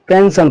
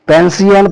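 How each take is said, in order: First: The ending is said as a 'shun' sound. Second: The ending is said as 'see-on' syllables. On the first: The speaker calls it right. "इस word को हम पेंशन पढ़ेंगे" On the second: The speaker calls it wrong. "पेंसियन पढ़ेंगे तो गलत होगा"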